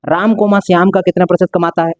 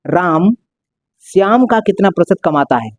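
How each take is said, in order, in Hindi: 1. पहले शब्द के बाद बिना रुके चलता है। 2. पहले शब्द के बाद थोड़ा रुकता है। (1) "एक जगह मैंने रिधम में बोला" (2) "एक जगह ठहराव है"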